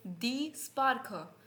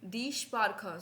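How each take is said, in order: First: "स्पार्क" begun with a plain s, as sparkha; mispronounced "स्पार्क", s instead of sh; mistaken S sound. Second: "स्पार्क" begun with sh, as shparkha; German "स्पार्क", opening on sh; corrected SH sound. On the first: Real, not acted. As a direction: say "स्पार्क" with s as in sun. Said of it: "स से pronounce किया है". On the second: Shown as a demonstration. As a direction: say "स्पार्क" with sh before the p. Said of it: "sorry मैंने स sound".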